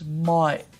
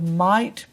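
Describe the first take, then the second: First: The T is replaced by a glottal stop. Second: The T is sounded as a clear T.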